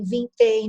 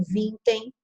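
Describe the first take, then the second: First: "vintém" stressed on the final -tém; stress on last syllable. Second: "vintem" stressed on the first syllable, VIN-tem; misplaced stress. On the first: Teacher showing the required reading, final stress on "vintém". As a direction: land on the end of "vintém". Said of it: "eu sou obrigada a dizer". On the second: Teacher showing the wrong reading, first-syllable stress on "vintem". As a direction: hit the start of "vintem", weak ending. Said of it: "não vintem". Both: Shown as a demonstration.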